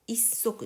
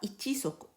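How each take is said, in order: First: It begins with 'i' and a doubled 's'. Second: It begins with the full syllables 'ichi'. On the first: The speaker calls it right. "issok desu" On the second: The speaker calls it wrong. "on ne dit pas ichisok"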